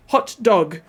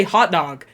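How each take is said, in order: First: HOT DOG with a short rounded O and a stop after HOT; British HOT DOG. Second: HOT DOG with both vowels AH and one sound in the middle; American HOT DOG. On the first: Learner checks the British way, HOT DOG with a stop between. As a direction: separate HOT from DOG with a clipped T. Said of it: "is that really how you say it?". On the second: Utah speaker shows their own way, HOT DOG run together. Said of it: "It's one sound in the middle". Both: Shown as a demonstration.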